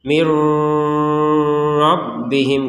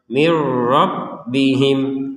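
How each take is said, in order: First: The merged sound carries a nasal hum. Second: The merged sound has no nasal hum. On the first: The speaker calls it wrong. "enggak ada dengung. Salah itu seperti itu" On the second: The speaker calls it right. "Langsung saja"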